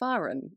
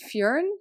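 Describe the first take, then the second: First: The name starts with the sound of 'far'. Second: The name does not start with 'far'. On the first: "I've been saying Faran, as in far off, far away" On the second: "Is it Fjörn?"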